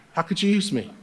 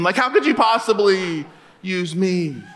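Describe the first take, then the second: First: Laughing aside. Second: Said in the usual way. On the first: Shown as a demonstration. Quiet laughing repeat of joke.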